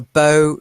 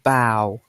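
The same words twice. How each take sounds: First: The vowel sounds like the one in 'go'. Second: The vowel sounds like the one in 'cow'. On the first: The stick used to play a string instrument. The speaker calls it right. "So a violin bow" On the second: Bending forward at the waist. The speaker calls it wrong. "not bow"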